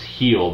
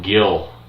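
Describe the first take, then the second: First: The name begins with an H sound. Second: The name begins with a hard G sound. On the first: The speaker calls it right. "The G is pronounced as an H" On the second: The speaker calls it wrong. "I kept calling him Gil"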